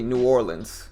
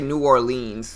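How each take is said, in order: First: It is pronounced the way most locals say it. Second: It is pronounced the way tourists say it. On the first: The speaker is from the area. The speaker calls it right. "is how most people pronounce it" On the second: The speaker is not from the area. The speaker calls it wrong. "Nobody says it like that. Tourists say it like that"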